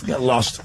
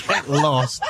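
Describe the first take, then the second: First: Said in the usual way. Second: Laughing. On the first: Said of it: "repeats it laughing". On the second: Real, not acted. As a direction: get lost said through a laugh. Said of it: "second take laughing".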